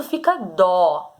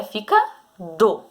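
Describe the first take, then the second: First: "dó" slow with an open stressed o. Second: "do" with a closed, light o. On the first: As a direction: say "dó" with an open, accented o. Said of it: "Se tiver o acento agudo". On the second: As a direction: say "do" with a closed, unaccented o. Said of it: "Se não tiver". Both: Shown as a demonstration.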